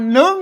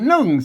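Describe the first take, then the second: First: The syllable is said on a high tone. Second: The syllable is said on a falling tone. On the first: "อ่านหนึ่งนะเสียงตีนะ" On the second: "อ่านหนึ่งเสียงโทปกตินะครับ"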